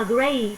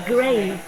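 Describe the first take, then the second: First: "grape" ending on a voiceless P; final P sound. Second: "grave" ending on a voiced V; final V sound. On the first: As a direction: say "grape" as in the fruit, cut off by P. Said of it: "Một quả nho là grave". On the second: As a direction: say "grave" as in a tomb, with V at the end. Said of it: "Nếu mà một ngôi mộ là grave". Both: Shown as a demonstration.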